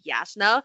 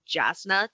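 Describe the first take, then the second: First: The name begins with a Y sound. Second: The name begins with a J sound. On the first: The speaker calls it right. "a lot of the names have the Hebrew pronunciation" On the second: The speaker calls it wrong. "switched from Jasna"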